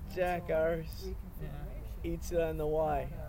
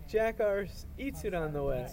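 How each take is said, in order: First: It is said in a put-on Australian accent. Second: It is said in the speaker's ordinary accent.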